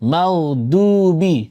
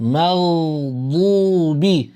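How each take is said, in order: First: The d sound is plain and sounds thin. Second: The d sound is heavy and emphatic. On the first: The speaker calls it wrong. "আমি একবার ডাল দিয়ে পড়ছি, মাগদুবি কেমন শোনাচ্ছে? পাতলা শোনাচ্ছে।" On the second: The speaker calls it right. "এবার শুনেন দদ দিয়ে"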